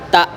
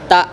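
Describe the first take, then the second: First: The final consonant stops short and firmly. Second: The same.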